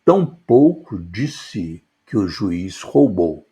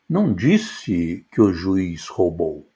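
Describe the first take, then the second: First: "tampouco" hit hardest, falling after; stress on tampouco. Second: "não" punched, the rest falling away; stress on não. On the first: Teacher stressing "tampouco" in a demo sentence. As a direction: lean on "tampouco" to open the line. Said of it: "demo before: ênfase na palavra". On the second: Teacher showing students stress on "não". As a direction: hit "não" and let "disse que o juiz roubou" fall. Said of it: "a ênfase na palavra não". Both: Shown as a demonstration.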